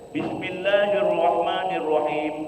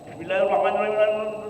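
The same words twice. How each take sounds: First: It is recited at a fairly quick pace. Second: It is recited extremely quickly and unclearly. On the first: This style suits reciting memorized passages to a teacher. The speaker calls it right. "baca hadr be. ... Agak cepat Pak" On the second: The followers cannot keep up with the prayer leader. The speaker calls it wrong. "bacaannya terlalu cepat"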